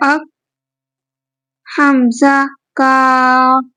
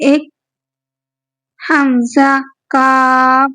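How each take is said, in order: Both takes have the same delivery.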